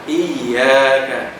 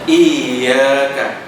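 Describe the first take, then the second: Both takes have the same delivery.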